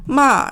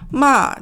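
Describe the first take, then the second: First: The pitch drops downward. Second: The pitch drops downward.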